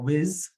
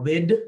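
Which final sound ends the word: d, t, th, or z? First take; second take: z; d. First: The word ends with a z sound. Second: The word ends with a d sound. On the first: "or whiz if you can't say that th sound" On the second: "or wid"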